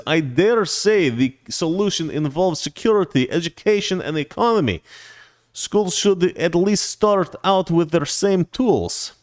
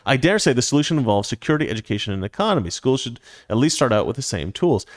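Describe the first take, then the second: First: Mock Russian accent, higher and slow; mock foreign accent. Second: Said in the usual way. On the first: Host reads viewer's super chat aloud, hammed-up mock Russian accent. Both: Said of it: "let me read that in English".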